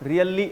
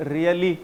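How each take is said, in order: Both takes have the same delivery.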